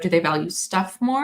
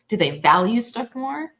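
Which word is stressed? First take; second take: stuff; value. First: The stress is on the word stuff. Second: The stress is on the word value.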